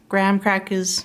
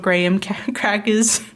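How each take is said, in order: First: It is said with an American pronunciation. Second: It is said with a non-American pronunciation. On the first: This is how Americans say it. "In America, you would use" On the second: This is how people outside America say it. "as the rest of us would say"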